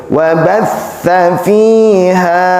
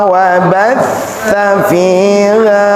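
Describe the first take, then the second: Both takes have the same delivery.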